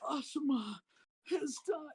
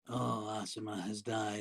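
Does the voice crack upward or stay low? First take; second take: cracks upward; stays low. First: The voice cracks and goes up in pitch. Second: The voice stays low and flat throughout.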